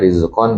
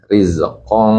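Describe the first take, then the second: First: The word ends with a plain n sound. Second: The word ends with a hidden, nasal ng sound. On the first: This is the base form before any change. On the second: The reader joins it to the next word. "Kalau diwasol jadi ikhfa"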